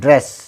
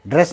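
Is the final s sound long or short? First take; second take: long; short. First: The final s sound is drawn out. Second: The final s sound is short. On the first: The speaker calls it right. "इसके लिए थोड़ा सा लंबा करेंगे" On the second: The speaker calls it wrong. "ड्रेस नहीं"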